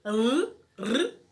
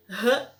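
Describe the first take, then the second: First: "r, r" as two short rolled rrr sounds; trilled R sound. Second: "r" as a short throaty huh; breathed R sound. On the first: Teacher showing the one-R sound, "r, r" rolled. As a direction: trill the tongue tip on each "r". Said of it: "para que eu tenha o som de r". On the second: Teacher showing the two-R sound, "r" aspirated. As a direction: puff "r" out like an H. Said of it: "Para que eu tenha o som de r". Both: Shown as a demonstration.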